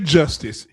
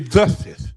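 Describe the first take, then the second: First: The word is said in its usual way. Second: The word is said in a distorted way. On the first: This is not how the chanter says it. "he don't say justice" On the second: This imitates how the chanter says it. "He say justice"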